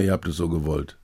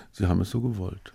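First: Muttered aside. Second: Muttering into beard. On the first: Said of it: "da denke ich mir immer". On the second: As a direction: mumble it half to yourself. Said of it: "mir in den Bart murmeln". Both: Pretend.

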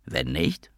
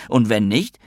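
First: Low, soft echo of "Wenn nicht?"; quiet menace. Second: Said in the usual way. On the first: Acted. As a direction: let it drop into a low threat. Blackmailer repeats his threat. (leise, drohend wiederholt)

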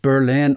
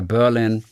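First: English "Berlin" stressed on LIN; weight on the second syllable of "Berlin"; end-stressed Berlin. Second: English "Berlin" stressed on BER; "Berlin" said BER-lin; weight on the first syllable of "Berlin"; front-stressed Berlin. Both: Shown as a demonstration. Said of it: "ob Berlin oder Berlin".

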